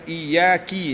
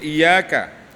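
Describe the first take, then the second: First: The k sound is followed by i. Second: The k sound is followed by a. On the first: The speaker calls it wrong. "Dengan harakat kasrah pada huruf kaf" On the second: The speaker calls it right. "Patutnya iyyaka"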